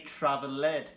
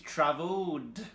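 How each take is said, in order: First: The ending is an extra syllable sounding like ed. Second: The ending is a plain D with no extra syllable. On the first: The speaker calls it wrong. "who are not natives say travelled, which is obviously very common because it's written travel, ed" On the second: The speaker calls it right. "with the L sound, it's travelled"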